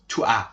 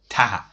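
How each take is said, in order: First: The vowel of tu is kept before as. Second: The vowel of tu is dropped, giving t'as. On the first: It is formal speech. "but in formal language you must say toi" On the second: It is informal speech. "in informal way. Sometimes in in the movies you see ta"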